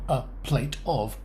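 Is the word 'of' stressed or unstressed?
stressed. The word 'of' is said fully and stressed. The speaker calls it wrong. "Not a plate of"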